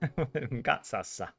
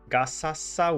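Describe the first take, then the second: First: The z sounds like ts, as in pizza. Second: The z sounds like a plain s. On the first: The speaker calls it right. "Like pizza" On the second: The speaker calls it wrong. "would be weird"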